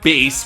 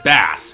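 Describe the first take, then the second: First: The word is not said like the fish. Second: The word is said like the fish. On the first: The speaker calls it right. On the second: The speaker calls it wrong.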